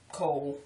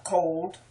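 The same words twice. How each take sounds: First: "Cold" as COLE; local pronunciation. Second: "Cold" with a final D; careful pronunciation. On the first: Local showing we don't say the D, "Cold" as cole. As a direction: drop the D from "Cold". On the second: Word-list reading, "Cold" with D. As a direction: sound the D ending "Cold". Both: Shown as a demonstration. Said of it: "We don't even say the D".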